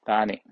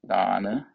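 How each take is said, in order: First: The word ends with an 'ee' vowel. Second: The word ends with an 'ah' vowel. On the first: This is the Sinhalese form. "Singhalese people call it Dani" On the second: This is the original Pali form. "Singhalese corruption of the same word"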